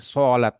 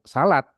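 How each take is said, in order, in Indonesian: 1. Bunyi pertama diucapkan dengan cara emfatik Arab. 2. Bunyi pertama adalah bunyi s biasa dalam bahasa Indonesia. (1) "antum mau ini semuanya fasih Arabnya jadi pilih sholat" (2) "yang bener kalau yang baku salat"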